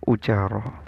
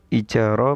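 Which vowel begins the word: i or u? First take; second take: u; i. First: The word begins with a u vowel. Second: The word begins with an i vowel. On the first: This is a less common reported reading. "wa hukiya ... dhammuha" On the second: This is the well-known reading. "bikasril hamzati ... fil masyhuri"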